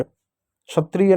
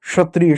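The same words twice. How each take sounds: First: क्षत्रिय drawn out with "chh" at the start; mispronounced chhatriya. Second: क्षत्रिय with a hushing "sh" at the start; pronounced shatriya. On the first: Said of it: "क्षत्रिय नहीं". (क्षत्रिय का "छत्रिय" जैसा गलत उच्चारण) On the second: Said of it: "श एक तरीके से पढ़ते हैं". (क्षत्रिय को "श" से शुरू करें) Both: Shown as a demonstration.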